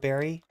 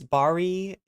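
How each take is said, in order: First: The name is said with English pronunciation. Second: The name is said with Hebrew pronunciation. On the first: "In a more Anglo way" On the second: "in Hebrew"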